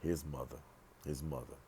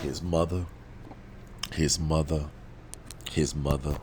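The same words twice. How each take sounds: First: Hushed repetition. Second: Loud, insistent repeats with pauses between; emphatic repetition. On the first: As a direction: drop the volume right down on the repeat. Drops voice on repeated words. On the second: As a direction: hammer the words home loudly. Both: Real, not acted.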